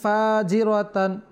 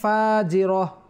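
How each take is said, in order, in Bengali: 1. শব্দটি পূর্ণ -atan ধ্বনিতে শেষ হয়। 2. শব্দটি ছোট -ah ধ্বনিতে শেষ হয়। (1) "যদি আমরা এখানে মিলাই পড়ি তাহলে আমরা হরকত দিয়ে পড়বো, তানবিন থাকলে তানবিন পরিপূর্ণভাবে উচ্চারণ হবে" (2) "যদি আমরা থামি তখন আমরা ওই থাটাকে হা করে দেব"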